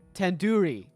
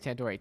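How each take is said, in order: First: The middle syllable sounds like 'doo'. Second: The middle syllable sounds like 'door'. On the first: The speaker calls it right. "it's like doo-doo head" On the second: The speaker calls it wrong. "You're saying it wrong"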